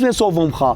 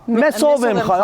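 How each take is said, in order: First: The 'am' is joined onto the preceding word. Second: The 'am' is said as a separate syllable. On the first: The speaker calls it right. "بیشتر سعی میکنن" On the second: The speaker calls it wrong. "این سوو ام خا قشنگ نیست"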